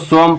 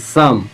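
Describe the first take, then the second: First: The vowel is an 'o' sound. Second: The vowel is a short 'uh' sound. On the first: "तो इसको सोम पढ़ना चाहिए" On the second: "बताइए सम"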